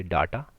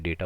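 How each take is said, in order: First: डाटा said as "daa-ta" with a broad a; डाटा with a flat Hindi "aa" sound; wrong data. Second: डेटा said as "day-ta" with a long e; डेटा pronounced "dayta", English style; correct data. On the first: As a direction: read डाटा the way it is spelt, "daa-ta". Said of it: "लिखा जाता है डाटा". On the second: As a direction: say डेटा like "day-ta", not "daa-ta". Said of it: "डेटा को डाटा नहीं बोलते हैं". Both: Shown as a demonstration.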